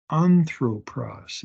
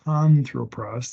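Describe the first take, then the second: First: "Anthropos" begun on a clean vowel, no H; slow "Anthropos" without any H; smooth breathing. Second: "anthropos" with an H added in front; breathy H before the first A of "anthropos"; wrong rough breathing. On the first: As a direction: slowly sound out "Anthropos" with an open A first. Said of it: "Notice the smooth breathing". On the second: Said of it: "There's no rough breathing". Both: Shown as a demonstration.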